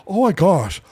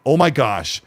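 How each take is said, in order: First: A hint of a hyped fan; imitating an excited fan. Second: Said in the usual way. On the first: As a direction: gasp it out like a thrilled superfan. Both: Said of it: "wait, I gotta talk like him".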